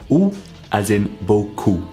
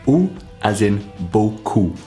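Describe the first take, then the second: No difference in how they are said.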